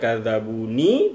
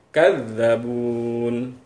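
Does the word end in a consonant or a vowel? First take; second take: vowel; consonant. First: The word ends with a final vowel sound. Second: The word ends on a bare n sound. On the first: The speaker calls it wrong. "kita tidak baca kadzabuni" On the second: The speaker calls it right. "bunyi nun yang terakhir kita sukunkan"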